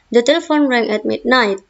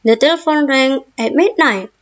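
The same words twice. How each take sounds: First: It is said in a calm, even voice. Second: It is said high-pitched, like an angry person. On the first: It is a plain statement without exclamation. The speaker calls it right. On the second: Every sentence is treated as an exclamation. The speaker calls it wrong.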